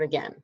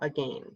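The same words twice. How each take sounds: First: The second vowel sounds like the one in ten. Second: The second vowel sounds like the one in rain. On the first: This is the everyday way of saying it. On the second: It is bent to rhyme with the line before.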